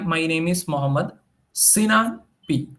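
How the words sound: The word Sinan carries strong stress. The text is marked as important. "So there will be a stress on the Sinan"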